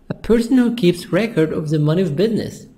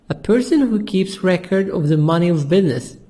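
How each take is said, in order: The two takes are said the same way.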